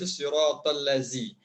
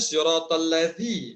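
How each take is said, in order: First: The consonant is a plain z sound. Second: The consonant is a voiced th-like sound. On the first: The speaker calls it wrong. "dibaca siratal lazi ... itu huruf zai" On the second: The speaker calls it right. "yang sebetulnya"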